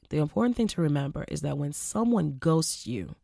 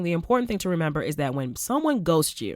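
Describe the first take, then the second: First: The sentence is said at a slow pace. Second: The sentence is said at a normal pace.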